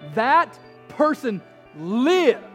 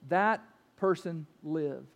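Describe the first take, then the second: First: It is said with excited, exclaiming emphasis. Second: It is said as a flat, matter-of-fact statement.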